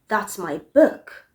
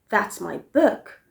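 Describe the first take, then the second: The two takes are said the same way.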